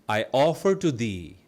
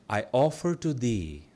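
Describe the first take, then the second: Both takes have the same delivery.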